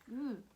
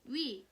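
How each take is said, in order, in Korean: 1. 이 모음은 미끄러지지 않고 한 소리로 일정하게 나는 단모음이에요. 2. 이 모음은 한 소리에서 다른 소리로 미끄러지는 이중 모음이에요. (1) "원래는 단모음으로" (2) "이중 모음으로 발음하는 것을 허용"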